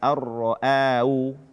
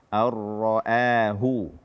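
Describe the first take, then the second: First: The h sound is dropped entirely. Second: The h sound is pronounced clearly. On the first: The speaker calls it wrong. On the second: The speaker calls it right. "tidak membaca ha ... dengan jelas"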